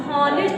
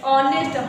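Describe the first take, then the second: First: हॉनेस्ट with the H sounded at the start; wrong pronunciation. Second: ऑनेस्ट starting straight on the vowel; silent H. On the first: Teacher warns pupils off this reading, sounded H. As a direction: put an audible h before the vowel in हॉनेस्ट. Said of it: "नहीं पढ़ोगे". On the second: Teacher models the word for pupils, silent H. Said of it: "एच आपका क्या हो जाएगा". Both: Shown as a demonstration.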